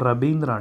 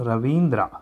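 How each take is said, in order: First: The name begins with a 'b' sound. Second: The name begins with a 'v' sound. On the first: This is how Bengali speakers say it. "వాళ్ళు మాత్రం రవీంద్ర అంటారు" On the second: This is how Telugu speakers say it. "మనం అంటాము"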